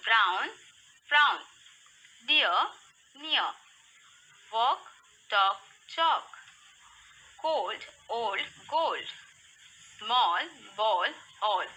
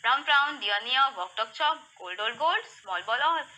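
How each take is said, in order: First: Slow, separated rhyming words; slow read-aloud. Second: Rapid-fire rhyming drill; fastest read-aloud. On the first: Teacher reading rhyming words for kids to repeat, slowly. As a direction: give each word room, pausing after it. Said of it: "slowly, read aloud". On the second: Teacher pushing kids through rhymes, very quickly. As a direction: rattle the rhyming sets off with hardly a pause. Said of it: "More faster". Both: Shown as a demonstration.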